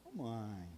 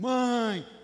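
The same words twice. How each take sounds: First: "Ô, mãe" said low and soft, drawn out; soft lazy call. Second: "Mãe" called out high and loud; urgent call. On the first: Preacher showing how a son calls his mother, soft and low. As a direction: call "Ô, mãe" quietly and casually. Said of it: "tem uma entonação". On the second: Preacher showing a son calling his mother urgently, loud and high. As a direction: call "Mãe" sharply, higher and louder. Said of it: "tem uma entonação e tal". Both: Shown as a demonstration.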